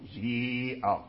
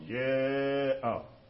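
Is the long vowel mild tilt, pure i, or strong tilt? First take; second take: pure i; strong tilt. First: The long vowel is a pure i sound. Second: The long vowel leans strongly toward i, not fully. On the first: The speaker calls it wrong. "هذا كسر خالص" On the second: The speaker calls it right. "إمالة كبرى"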